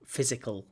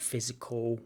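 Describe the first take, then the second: First: Physical said crisply, every sound in physical clear; correct pronunciation. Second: Physical said loosely, unstressed, sounds swallowed; imitated wrong pronunciation. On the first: Shown as a demonstration. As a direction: say physical with full enunciation. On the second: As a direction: copy the student's unclear physical. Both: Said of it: "Not physical".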